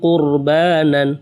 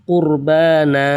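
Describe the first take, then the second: First: The word ends with an n sound. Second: The word ends with a lengthened vowel. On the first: The reading continues without stopping. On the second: The reading stops on this word.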